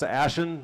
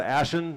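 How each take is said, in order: First: The second syllable has a weak 'en' vowel. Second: The second syllable has a weak 'en' vowel.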